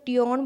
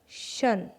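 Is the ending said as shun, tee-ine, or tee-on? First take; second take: tee-on; shun. First: It is said as two syllables, tee-on. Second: It is said as one syllable, shun. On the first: The speaker calls it wrong. "ना ही तो टियोन बोला जा रहा है" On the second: The speaker calls it right. "इसे बोल रहे हैं शन"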